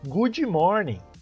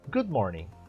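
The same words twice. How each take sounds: First: An extra vowel is added after good. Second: No extra vowel is added after good. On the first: The speaker calls it wrong. "eu falo good morning, é como se eu estivesse dizendo bonzinho dia" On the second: The speaker calls it right. "ao invés de eu falar é, good morning, olha só"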